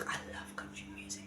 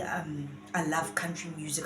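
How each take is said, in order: First: Unvoiced whispered aside. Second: Said in the usual way. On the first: Real, not acted. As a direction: whisper it to yourself.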